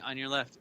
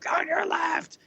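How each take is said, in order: First: It is said quietly and casually. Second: It is yelled loudly.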